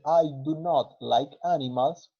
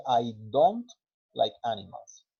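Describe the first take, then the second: First: "I do not like animals", slow, with "do not" said as two separate full words; full form do not. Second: "I don't like animals" with "don't" run together as one short syllable; contracted don't. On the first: Teacher showing students the long form first, slow and careful. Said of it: "En vez de decir". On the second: Teacher showing the everyday American contraction, relaxed. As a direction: glide through the contraction "don't" naturally. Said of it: "puede decirse". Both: Shown as a demonstration.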